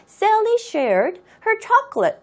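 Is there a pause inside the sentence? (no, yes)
yes. It is read with a pause in the middle. "해도 상관없어요"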